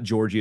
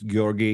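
First: The name is said in an Americanized way. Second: The name is said in a non-Americanized way. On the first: The speaker calls it wrong. "it's not Georgie" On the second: The speaker calls it right. "it's Georgi"

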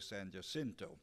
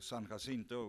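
First: The name has the local pronunciation used here. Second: The name has its San Antonio pronunciation. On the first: "I'm over here, I'm a politician, so I'll have to say San Jacinto" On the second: "that's the way we pronounce it in San Antonio"

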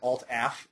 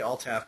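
First: The final letters A and F are spelled out. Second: The acronym is pronounced as one word. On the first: "if I said ALT-AF, I'd be looking for the AF key on the keyboard" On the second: "I'll say ALTAF"

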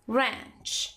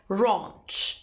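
First: It is said in an American accent. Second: It is said in a British accent. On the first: "in American it's" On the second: "in British English it's"

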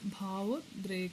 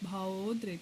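First: The o vowel after bhav is short. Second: The o vowel after bhav is long. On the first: The speaker calls it wrong. "ಭಾವೋದ್ರೇಕ ಅಲ್ಲ" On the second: The speaker calls it right. "ಓ ದೀರ್ಘ ಬರೀಬೇಕು"

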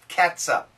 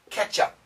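First: The word is said with a 't-s' sound in the middle. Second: The word is said with a 'ch' sound in the middle. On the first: This is the form the father-in-law says educated people use. "Cat, as in cat, meow, and sup, catsup" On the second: This is the common everyday form. "you mean the ketchup?"

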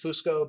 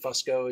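First: The name is said the Italian way. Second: The name is said the American way. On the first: This is how the name is said in its home country. "in Italy, it's Fusco" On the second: This is how part of the family in the United States says it. "but we pronounce it Fusco"

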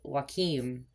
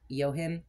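First: The name does not begin with 'yo'. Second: The name begins with 'yo', like 'yo him'. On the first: "the American version is Joachim" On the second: "Like, yo, him"

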